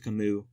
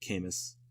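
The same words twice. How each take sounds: First: The final S is silent. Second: The final S is pronounced. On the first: The speaker calls it right. "the S is silent. So yeah, it's actually Camus" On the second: The speaker calls it wrong. "instead of Camus"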